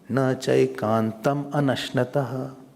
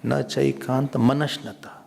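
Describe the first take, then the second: First: The two words are said apart without linking. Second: The final m joins onto the next word. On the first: The speaker calls it wrong. "Don't say" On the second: The speaker calls it right. "So you have to mix ma with it"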